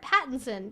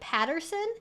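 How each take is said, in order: First: The second syllable is pronounced with 'in'. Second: The second syllable is pronounced with 'er'. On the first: "an I N" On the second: "Like it's an E R"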